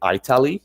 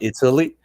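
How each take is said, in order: First: The name is said with an old-fashioned pronunciation. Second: The name is said with its standard pronunciation. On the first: The speaker calls it wrong. "back in the day people used to say Italy" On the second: The speaker calls it right. "and not"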